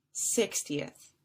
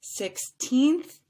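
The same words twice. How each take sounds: First: "sixtieth" low and falling after SIX; short-ending sixtieth. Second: Put-on "Sixteenth" high and loud on a stretched "teenth"; long stressed TEENTH. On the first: Teacher drilling the difference, "sixtieth" low with short ending. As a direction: drop pitch through short "ti-eth" in "sixtieth". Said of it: "three syllables". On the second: Teacher drilling the difference, "Sixteenth" with long rising teenth. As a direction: lift and lengthen the end of "Sixteenth". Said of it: "stretched out just a little bit longer". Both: Shown as a demonstration.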